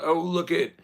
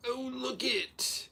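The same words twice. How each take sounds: First: Mock awe. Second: High, slow, soft mock awe; mock breathy awe. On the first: Mock gasp at supermodels. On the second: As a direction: gush over it in a mocking coo. Mocking voice again.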